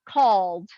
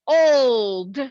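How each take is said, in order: First: The vowel is a short O sound. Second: The vowel is a long O sound. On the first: The speaker calls it wrong. "if I were to do the short ho- O here, it doesn't make sense" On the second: The speaker calls it right. "I'm going to say the long O"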